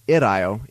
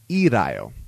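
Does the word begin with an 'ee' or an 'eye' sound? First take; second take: eye; ee. First: The word begins with an 'eye' sound. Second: The word begins with an 'ee' sound. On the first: The speaker calls it wrong. "it's not an irayo" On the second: The speaker calls it right. "it's irayo"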